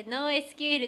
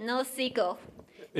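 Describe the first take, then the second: First: ノーエスキューエル spelled out letter by letter, Japanese style. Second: ノーシークエル said as "no sequel", English style; ノーシークエル with the English "sequel" sound; English pronunciation. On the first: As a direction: read ノーエスキューエル as separate letters N-O-S-Q-L. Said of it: "日本語だとこれなんていうかって". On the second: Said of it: "英語だと". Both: Shown as a demonstration.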